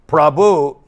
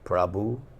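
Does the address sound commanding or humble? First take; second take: commanding; humble. First: The word is said in a bossy, commanding tone. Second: The word is said in a humble, respectful tone. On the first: The speaker gives an order to the one addressed. The speaker calls it wrong. "as like we're telling the master, Prabhu. No, that's not" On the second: The speaker honors the one addressed as master. The speaker calls it right. "No, Prabhu means Prabhu"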